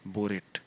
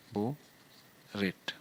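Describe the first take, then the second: First: Said in the usual way. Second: borate drawn out slowly, long gap between बो and रेट; syllable-by-syllable dictation. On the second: Shown as a demonstration. Teacher writing out the compound's name, borate slowly split in two. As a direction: say borate in two separated pieces, बो, then रेट.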